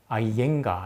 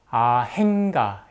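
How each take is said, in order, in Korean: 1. 이 이름에는 h 소리가 없어요: ai-en-ga. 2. 이 이름에는 h 소리가 있어요: a-heng-ga. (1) "이렇게 인도에서 발음합니다" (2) "아행가 이렇게 적어놨죠"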